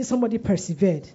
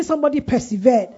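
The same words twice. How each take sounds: First: Said in the usual way. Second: Loud, raised call for a response; louder prompt. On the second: Real, not acted. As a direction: make the congregation shout it back. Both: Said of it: "I can't hear you".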